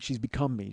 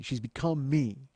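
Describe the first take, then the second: First: Said in the usual way. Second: "She's become me." said slow, leaning on "me"; slow emphatic repeat. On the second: Shown as a demonstration. Host repeats to the guest, slowing on "me". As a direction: drag out "She's become me." for weight.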